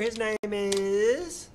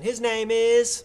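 First: Stretched slow, rising at the end; drawn-out intro. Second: Slow build to a held last word; drawn-out announcement. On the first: Host introducing the next artist, drawn-out intro. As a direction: hang on the last word as if awaiting the reveal. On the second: Host trying the artist intro again, drawn-out announcement. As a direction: announce it firmly, holding "is" on one note. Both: Real, not acted.

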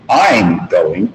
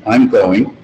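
First: "I'm going" with the weight on "I'm"; emphatic stress on I'M. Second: Said in the usual way. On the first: Shown as a demonstration. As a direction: stress "I'm" to contrast with someone else. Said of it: "if you wanted to say emphatically". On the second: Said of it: "But if you wanted to say emphatically".

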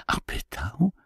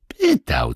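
First: "pytał" rising softly as a question; anxious question. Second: "Pytał" as a falling statement; firm confirmation. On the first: Marysia asks the boy, "pytał" said softly with questioning rise. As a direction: ask "pytał" high and quieter, lifting at the end. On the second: Boy confirms to Marysia, "Pytał" falling and assured. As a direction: answer "Pytał" in full voice, dropping at the end. Boy echoes her word as answer. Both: Acted.

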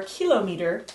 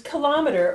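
First: Kilometer pronounced KIL-oh-mee-ter; stress on first syllable. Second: Kilometer pronounced kuh-LOM-uh-ter; stress on second syllable. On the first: Teacher offering learners the alternative, kilometer stressed as KIL-oh-mee-ter. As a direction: lead kilometer with KIL, clear long ee in meter. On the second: Teacher listing abbreviations for learners, kilometer stressed as kuh-LOM-uh-ter. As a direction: punch LOM in kilometer, short vowels after it. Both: Shown as a demonstration. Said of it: "depending on how you pronounce it".

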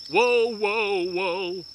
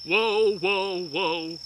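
Both takes have the same delivery.

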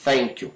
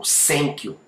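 First: "thank you" with tongue-tip TH, no vibration; correct voiceless TH. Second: "thank you" said as "senk you"; S in place of TH in "thank you"; learner's wrong "thank you", starting with S; mispronounced S. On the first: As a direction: model "thank you" with unvoiced TH. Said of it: "a gente fala". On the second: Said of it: "Não, a gente fala". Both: Shown as a demonstration.

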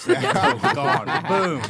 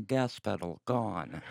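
First: High, loud, slow laughing repeat. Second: Slow, soft robot announcement; deadpan car computer. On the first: Real, not acted. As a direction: crack up saying it. Repeats robot line laughing. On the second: Acted. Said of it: "then I go".

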